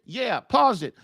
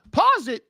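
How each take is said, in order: First: Said in the usual way. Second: A high, mock surprised wife asking back; imitating the wife. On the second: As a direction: lightly play the wife, caught off guard. Wife questions husband pausing movie.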